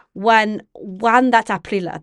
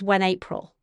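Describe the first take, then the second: First: "When, when that Aprila" in Middle English sounds, Aprila with a sounded final a; Middle English reading. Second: Said in the usual way. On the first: Shown as a demonstration. Reciting Chaucer's first line to students, in Middle English pronunciation. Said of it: "what I just recited". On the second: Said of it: "that's just".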